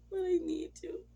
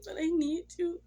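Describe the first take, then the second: First: Higher tearful plea. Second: Louder, higher, begging cry; loud tearful plea. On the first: Pleading with late husband. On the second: Widow begging her late husband, loud tearful plea. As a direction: cry out to him that you need him. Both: Retold or imitated.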